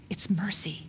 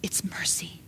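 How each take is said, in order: First: Breathy whispered repeat; whispered echo of the first take. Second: Softly spoken, voice dropped low; quiet, voiced and tender. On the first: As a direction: whisper it like a secret. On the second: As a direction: say it gently under the breath. Soft repeat before a whisper. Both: Real, not acted.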